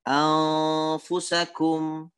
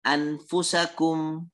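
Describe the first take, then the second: First: The n is hidden with a nasal sound. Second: The n is pronounced clearly and fully. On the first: The speaker calls it right. "Harus dibaca dengan ikhfa" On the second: The speaker calls it wrong. "Tetapi dia baca dengan anfusakum"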